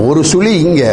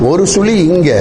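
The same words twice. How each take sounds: Both takes have the same delivery.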